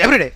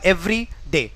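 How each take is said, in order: First: It is said quickly, run together. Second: It is said slowly, with a slight gap. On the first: The speaker calls it wrong. "जल्दी everyday ऐसे करके जल्दी से नहीं पढ़ना है" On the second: The speaker calls it right. "थोड़ा बहुत एवरीडे और एवरी डे ऐसे पढ़ना है"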